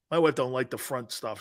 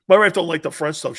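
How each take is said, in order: First: Said in the usual way. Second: Louder, punched-out repeat. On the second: Real, not acted. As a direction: say it again so everyone hears.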